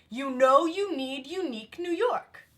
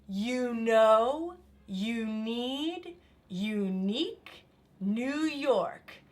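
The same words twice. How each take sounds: First: It is said at a faster pace. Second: It is said at a slower pace.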